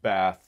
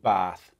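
First: The vowel matches the vowel heard in trap. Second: The vowel differs from the vowel heard in trap. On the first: This is how most Americans say it. "Most Americans say bath and trap" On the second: Some Americans distinguish these words. "some Americans who make a difference between those"

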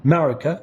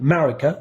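No difference in how they are said.

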